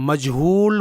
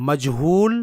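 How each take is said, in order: No difference in how they are said.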